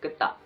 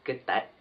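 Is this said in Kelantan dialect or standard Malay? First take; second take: Kelantan; standard. First: It is said in Kelantan dialect. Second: It is said in standard Malay.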